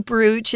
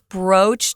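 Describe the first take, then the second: First: The vowel is an oo sound. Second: The vowel is a long O sound. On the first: The speaker calls it wrong. "don't say brooch" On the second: The speaker calls it right. "just the long O"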